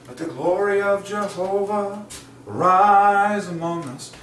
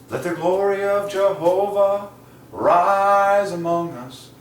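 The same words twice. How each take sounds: The two takes are said the same way.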